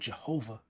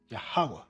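First: The name begins with a J sound. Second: The name begins with a Y sound. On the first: "Hebrew doesn't have a letter J" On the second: "the pronunciation of the name Jehovah would be, in the old ancient Paleo-Hebrew, Yahweh"

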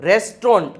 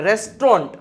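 The two takes are said the same way.

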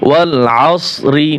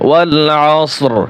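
First: The word ends with a short i vowel. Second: The word ends on a bare r sound. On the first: The recitation continues without stopping. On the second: The reciter stops at this word.

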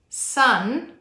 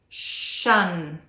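First: The word begins with an s sound. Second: The word begins with an sh sound. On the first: The speaker calls it right. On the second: The speaker calls it wrong.

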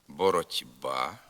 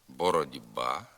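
First: The consonant before ба is a voiceless t. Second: The consonant before ба is a voiced d. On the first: This follows the spelling. "Пишеться" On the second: This is the actual spoken form. "А вимовляється"

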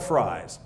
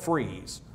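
First: The vowel is an 'eye' sound. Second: The vowel is a long 'ee' sound. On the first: This is the name used in hot weather. "When it's hot, they call it Fries" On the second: This is the name used in cold weather. "When it's cold, they call it Freeze"

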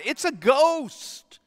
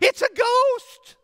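First: It is said calmly, with composure. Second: It is screamed in fear.

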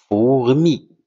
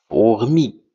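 No difference in how they are said.

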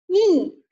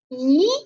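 First: The pitch falls sharply from high to low. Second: The pitch rises from middle to high. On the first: "四声读e e" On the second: "二声是向上扬的，读咦咦"

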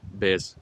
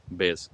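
Both takes have the same delivery.

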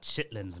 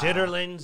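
First: The word is said in a short clipped form. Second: The word is said in its full longer form. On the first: The speaker uses the Southern way of saying it. "but I'm South" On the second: Other people say it this way. "if you say it that way"

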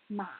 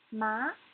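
First: The pitch dips low, then rises again. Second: The pitch rises from middle to high. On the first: "the third tone needs to go down and up again" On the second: "the second tone needs to go up"

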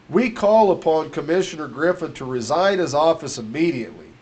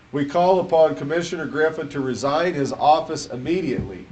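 No difference in how they are said.

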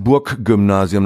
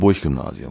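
First: Burg ends in a g sound. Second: Burg ends in a ch sound. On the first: This is the official standard way of saying it. "das ist ein G" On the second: This is the everyday local way of saying it. "Wir sprechen ja der C H statt G im Auslaut"

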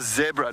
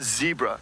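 First: The first syllable rhymes with 'deb', as in Debra. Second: The first syllable rhymes with 'dee', not 'deb'. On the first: The speaker calls it right. "it's a zebra" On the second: The speaker calls it wrong. "not a zebra"

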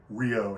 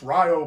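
First: The name is said the usual, familiar way. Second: The name is said the local, anglicized way. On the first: This is how outsiders say it. The speaker calls it wrong. "You say Rio to someone in that area" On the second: This is how the people who live there say it. The speaker calls it right. "they're like, damn, it's Rio, boy"

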